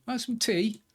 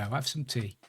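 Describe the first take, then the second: First: Villager offering tea. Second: Said in the usual way. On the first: Pretend.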